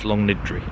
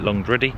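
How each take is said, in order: First: The name is said as Long-niddry. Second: The name is said as Long-driddy. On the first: The speaker calls it right. "it's Longniddry" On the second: The speaker calls it wrong. "I've been calling it Longdriddy"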